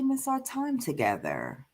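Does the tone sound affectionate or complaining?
affectionate. The tone sounds warm and affectionate. The speaker is inviting closeness. "in a way that inspires closeness"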